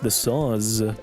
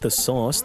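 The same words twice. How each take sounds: First: The word ends with a buzzing Z sound. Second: The word ends with a hissing S sound. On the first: The speaker calls it right. "With a Z" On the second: The speaker calls it wrong. "not the sauce"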